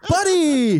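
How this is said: It sounds excited and upbeat.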